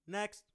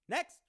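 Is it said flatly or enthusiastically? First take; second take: flatly; enthusiastically. First: It is said flatly, without enthusiasm. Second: It is said with more enthusiasm.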